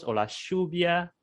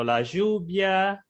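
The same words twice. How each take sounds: First: "lluvia" said as "shubia", stronger; Argentine sh. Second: "lluvia" drawn out slowly as "zhubia"; soft zh sound. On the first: Teacher showing the Argentine "lluvia". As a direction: give "lluvia" a hard Argentine sh. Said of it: "Los argentinos". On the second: Teacher slowly showing one way to say "lluvia". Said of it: "puede ser, por ejemplo". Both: Shown as a demonstration.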